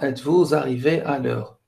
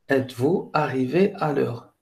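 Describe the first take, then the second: First: A z sound links vous to arrivé. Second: Vous and arrivé are said separately, unlinked. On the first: The speaker calls it wrong. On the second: The speaker calls it right.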